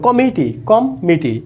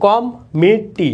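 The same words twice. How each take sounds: First: Said in the usual way. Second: কমিটি slowly, with a held double m and double t; slow কমিটি, leaning on the doubled consonants. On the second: Shown as a demonstration. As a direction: stretch কমিটি so the doubled m and t are heard. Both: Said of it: "এখন দেখো কমিটি".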